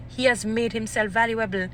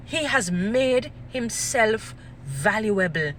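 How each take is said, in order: First: Said in the usual way. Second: Very slow, word by word; slow emphatic repeat. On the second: Real, not acted. Speaker driving the point home, slow and emphatic. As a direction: spell out "He has made himself valuable" in separated, weighty chunks.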